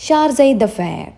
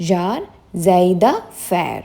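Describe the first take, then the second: First: Slow model say of ഷാർസൈ ദ ഫെയർ, stress on ഷാർസൈ, falling end; careful pronunciation. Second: ഷാർസൈ ദ ഫെയർ stretched out very slowly, weight on ദ; very slow model. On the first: Teacher modelling ഷാർസൈ ദ ഫെയർ for students to repeat, slow and clear. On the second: Teacher slowly spelling out ഷാർസൈ ദ ഫെയർ by sound for students. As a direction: draw out each part of ഷാർസൈ ദ ഫെയർ. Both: Shown as a demonstration. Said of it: "ഇതൊന്ന് repeat ചെയ്ത് നോക്കൂ".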